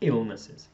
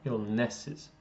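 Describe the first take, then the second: First: The stress is on the first syllable. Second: The stress is not on the first syllable. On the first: The speaker calls it right. "you need to stress that beginning bit" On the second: The speaker calls it wrong. "when you said it before, it sounded a bit more like illnesses"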